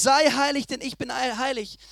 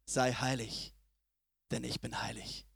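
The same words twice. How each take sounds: First: Said in the usual way. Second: Much softer, slow and solemn; hushed quote of God. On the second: Acted. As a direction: drop right down and let God's words land softly. God's words quoted in sermon. (leise und feierlich gesprochen)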